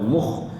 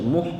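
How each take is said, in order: First: The kh has a harsh rasping throat vibration. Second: The kh is soft, like a light h. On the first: The speaker calls it right. "makhraj kha dia ada getaran dekat pangkung ya" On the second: The speaker calls it wrong. "kalau kita tak buat sungguh-sungguh dia jadi macam muh"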